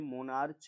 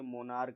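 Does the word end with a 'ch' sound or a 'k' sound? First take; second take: ch; k. First: The word ends with a 'ch' sound. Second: The word ends with a 'k' sound. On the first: The speaker calls it wrong. "ये मोनार्च नहीं है" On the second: The speaker calls it right. "ये मोनार्क है"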